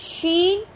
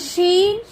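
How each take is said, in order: Both takes have the same delivery.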